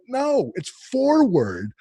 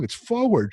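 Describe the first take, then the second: First: "forward" slowly as FOR-ward, much higher; exasperated, drawn-out "forward" with the R sounded; stressed R. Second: "forward" insisted on as FOH-ward, higher pitch; protesting "forward" with no first R; dropped R. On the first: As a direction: correct someone with a long, hard R in "forward". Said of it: "There's an R". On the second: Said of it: "I took the R out". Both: Retold or imitated.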